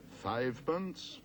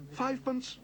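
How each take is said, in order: First: Slow, disbelieving question; incredulous repeat. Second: Much higher, eager cry; excited cry. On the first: Auctioneer repeating the tiny bid in disbelief. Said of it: "repeated the auctioneer". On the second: Paddington eagerly crying out his tiny bid. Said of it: "cried Paddington excitedly". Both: A narrator's reading.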